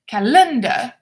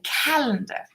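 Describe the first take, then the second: First: The stress is on the second syllable. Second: The stress is on the first syllable. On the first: The speaker calls it wrong. "not on the second" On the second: The speaker calls it right. "the stress should be on the first syllable"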